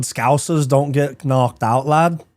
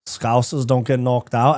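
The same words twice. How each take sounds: First: Put-on slow, drawn-out Liverpool accent; a Scouser's slow boast in a Liverpool accent. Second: A slow, lighter Scouse repeat; Scouse accent. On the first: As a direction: lay on the Scouse, slowly. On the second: Acted. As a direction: say it again with a slow Liverpool lilt. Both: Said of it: "Not a bad accent".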